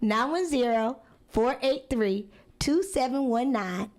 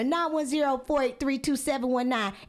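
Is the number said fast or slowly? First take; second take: slowly; fast. First: The number is said slowly. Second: The number is said at a quicker pace.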